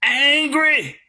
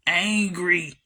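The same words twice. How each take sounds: First: ANGRY punched out, much stronger; forceful, insistent ANGRY; driven-home emphasis. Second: ANGRY said low and level; low-pitched, measured ANGRY; deadpan emphasis. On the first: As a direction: hammer ANGRY home so they hear it. Repeats word after "You hear me?. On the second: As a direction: drop ANGRY in low, as a grave verdict. Word repeated for emphasis. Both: Real, not acted.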